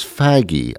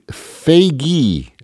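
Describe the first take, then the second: First: "faggy" with a short a as in bag; mistaken pronunciation. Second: "faggy" said as FAY-gee, pitched high; corrected pronunciation. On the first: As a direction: say "faggy" to rhyme with baggy. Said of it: "I always thought it was". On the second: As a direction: say "faggy" with a long ay and hard g. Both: Shown as a demonstration.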